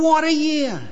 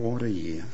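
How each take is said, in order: First: It is said with lively, excited delight. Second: It is said in a tired, weary manner. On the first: The year was a wonderful high point. "he's had a fantastic high this year" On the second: The year was hard and draining. "shaking your head"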